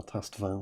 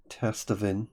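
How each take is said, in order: First: Testavin ending in an open "-van"; alternative pronunciation. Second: Testavin ending in a short "-vin"; alternative pronunciation. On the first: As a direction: say Testavin with the last vowel opened to "ah". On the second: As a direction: say Testavin with the last vowel as in "pin". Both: Shown as a demonstration. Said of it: "whatever you call it".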